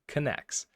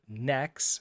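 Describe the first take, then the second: First: The word starts with a K sound before N. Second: The word starts with an N sound, no K. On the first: "in the README it says this is pronounced Knex" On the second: "spelled Nex with a silent K"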